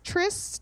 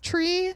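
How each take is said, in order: First: The final S sound is pronounced. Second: The final S sound is silent.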